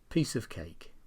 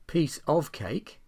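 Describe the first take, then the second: First: The word 'of' is weak and reduced. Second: The word 'of' is said in full.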